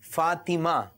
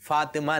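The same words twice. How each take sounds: First: The name is said with careful, precise sounds. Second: The name is said with loose, imprecise sounds. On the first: The speaker calls it right. "ये सही तलफ़ुज़ है" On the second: The speaker calls it wrong. "नहीं है"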